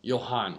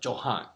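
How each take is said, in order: First: The name begins with a Y sound. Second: The name begins with a J sound. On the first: "it sounds like a Y or something" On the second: "The Johann is more the English enunciation"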